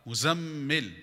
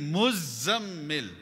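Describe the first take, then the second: First: Only one consonant in the name is doubled. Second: Both the z and the m are doubled. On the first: The speaker calls it wrong. "both are incorrect" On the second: The speaker calls it right. "It's actually muzammil. Za shadda, mim shadda"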